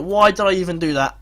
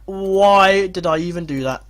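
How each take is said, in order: First: Said in the usual way. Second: Why drawn out slowly; slow, exasperated repeat with a long Why; stress on Why. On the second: Real, not acted. Manager blames himself for the substitution, Why stretched out. Repeats the self-reproach with emphasis.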